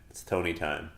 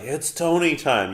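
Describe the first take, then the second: First: The phrase is said quietly. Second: The phrase is said loudly.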